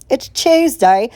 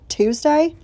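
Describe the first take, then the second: First: Playful British "Tuesday", said like "Chewsday"; put-on British lilt, higher and rising; British accent. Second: Said in the usual way. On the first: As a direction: slip into a mock British accent, pitched higher. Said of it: "Am I gonna morph into an accent?".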